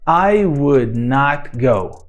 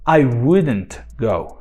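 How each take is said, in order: First: Would not is said as two full words. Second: Would not is said as one contracted word. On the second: "Reduzir na negativa"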